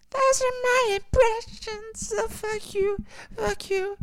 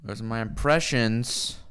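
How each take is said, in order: First: Much higher, slower, squeaky cartoon taunt; silly high voice. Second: Said in the usual way. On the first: Streamer taunting chat in a squeaky high voice.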